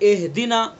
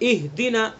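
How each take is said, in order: First: The first vowel is shifted and muffled. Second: The first vowel is pure and clear. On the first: The speaker calls it wrong. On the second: The speaker calls it right.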